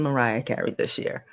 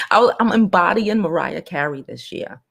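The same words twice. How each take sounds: First: Whisper. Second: Said in the usual way. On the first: Pretend. Repeats line in whisper.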